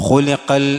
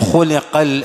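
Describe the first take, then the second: Both takes have the same delivery.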